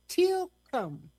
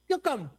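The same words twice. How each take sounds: First: The word is said slowly. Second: The word is said at normal speed.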